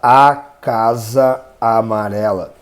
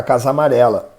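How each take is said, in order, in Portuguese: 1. As duas vogais se pronunciam separadamente. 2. As duas vogais se fundem em uma só. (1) "A gente não vai falar" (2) "vai juntar, então vai ficar"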